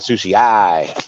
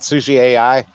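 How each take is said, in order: First: AI is spoken as a single word. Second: AI is spoken as two separate letters. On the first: "I'm pronouncing the A I as a word" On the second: "some people call it sushi A I"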